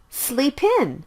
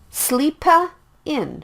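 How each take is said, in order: First: The P links directly into the next vowel. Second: An extra vowel is added after the P. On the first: The speaker calls it right. "The sound is blended as well" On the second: The speaker calls it wrong. "Don't say it like sleepa in"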